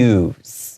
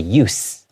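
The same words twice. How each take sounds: First: The word ends with a buzzing z sound. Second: The word ends with a hissing s sound. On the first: The word is used as a verb. "when it's in the verb form, there's more of a Z sound" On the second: The word is used as a noun. "It's being used as a noun, so it has more of an S sound"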